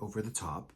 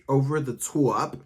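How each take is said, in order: First: The name is said in a plain, ordinary way. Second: The name is said in an exaggerated, theatrical way. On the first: "You can just say Over the Top" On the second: "You don't have to say it like that"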